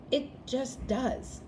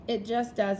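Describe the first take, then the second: First: Each word slowed and leaned on: It just does; slow emphatic. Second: Said in the usual way. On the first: Shown as a demonstration. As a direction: drag out "It just does" with weight.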